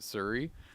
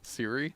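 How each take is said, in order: First: The name is said in a slurred, nonstandard way. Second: The name is said in the standard way. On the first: The speaker calls it wrong. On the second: The speaker calls it right.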